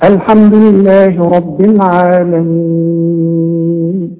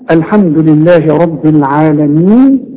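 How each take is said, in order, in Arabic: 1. الحرف الأخير يُمد ست حركات. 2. الحرف الأخير يُمد حركتين. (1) "وستة" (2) "ممكن تقف عليها حركتين"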